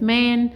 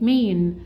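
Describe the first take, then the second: First: "مان" as English "man", open A; short A word. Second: "مين" as English "main", gliding A; long A word. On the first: Teacher contrasts the two finished words, "مان" with short open A. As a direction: say "مان" with the vowel of cat. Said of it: "كان الساوند عندي شورت فاول". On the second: Teacher contrasts the two finished words, "مين" with long A. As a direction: say "مين" with a drawn-out "ay". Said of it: "إنما هنا قال لي إيه". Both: Shown as a demonstration.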